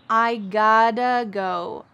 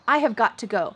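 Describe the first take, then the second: First: 'Have' is dropped and 'got to' is run together as 'gotta' with a D-like sound. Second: Every word is said in full, with 'have' and a clear 'got to'. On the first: "we cut out have, and got to becomes gotta... the T's change to a D sound. Listen when I say it" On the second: "We could say, I have got to go"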